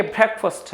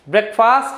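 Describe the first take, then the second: First: ब्रेकफास्ट said brekfəst, short second vowel; ब्रेकफास्ट with short schwa, soft ending; correct pronunciation. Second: ब्रेकफास्ट with long aa in fast; ब्रेकफास्ट the common Indian way; wrong pronunciation. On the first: Teacher giving students the right ब्रेकफास्ट. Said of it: "ये ब्रेकफास्ट है". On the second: Teacher showing students the wrong ब्रेकफास्ट. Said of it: "ब्रेकफास्ट ये नहीं है". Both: Shown as a demonstration.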